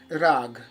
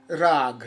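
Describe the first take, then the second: First: The word ends on a consonant sound. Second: The same.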